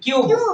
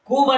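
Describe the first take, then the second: First: The vowel starts with a y sound. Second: The vowel is a plain oo without y. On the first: The speaker calls it right. "ಕೊನೆ ಅಕ್ಷರ E ಬಂತಂದ್ರೆ ಯು ಅನ್ಬೇಕು" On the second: The speaker calls it wrong. "ಇಲ್ಲಿ ಕೂಬ್ ಅನ್ನಕ್ ಬರೋದಿಲ್ಲ"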